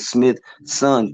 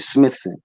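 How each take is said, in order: First: The name is said slowly, split into two parts. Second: The name is said at normal speed as one word.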